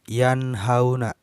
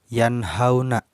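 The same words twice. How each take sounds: The two takes are said the same way.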